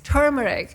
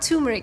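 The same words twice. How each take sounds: First: The R in the first syllable is pronounced. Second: The R in the first syllable is dropped. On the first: The speaker calls it right. "There's R in there" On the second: The speaker calls it wrong. "It's not turmeric"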